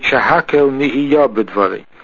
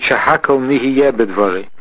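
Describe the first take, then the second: First: The vowel after the y is an aw. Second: The vowel after the y is an e. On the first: The speaker calls it right. "we pronounce it" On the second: The speaker calls it wrong. "Some people pronounce it"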